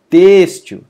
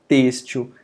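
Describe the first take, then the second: First: TÊXtil, first syllable long and very loud; stress on penultimate. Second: Said in the usual way. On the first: Shown as a demonstration. Teacher showing the strong syllable, Têxtil heavily stressed on "Têx". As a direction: slam and stretch the "Têx" of Têxtil. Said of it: "É pronunciado com mais força". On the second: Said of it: "é pronunciada com mais força".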